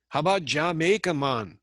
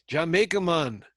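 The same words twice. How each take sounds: First: Playful mock Jamaican accent. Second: Jamaican "Jamaica, man", pitched higher and louder; hammed-up Jamaican accent. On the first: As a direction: toss off a breezy Jamaican "Jamaica, man". Mimicking Jamaican tourist slogan. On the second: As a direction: lean into the Jamaican lilt on "Jamaica". Repeats the slogan in accent.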